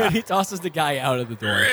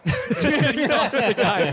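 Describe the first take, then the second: First: Said in the usual way. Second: Cracking up, high and drawn out; slow, high-pitched giggling narration; laughing. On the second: Real, not acted. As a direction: narrate through helpless laughter. Narrator cracks up mid-sentence.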